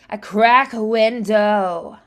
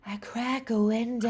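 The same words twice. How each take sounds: First: It has more intensity and vocal pressure. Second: It is airy with light vocal pressure.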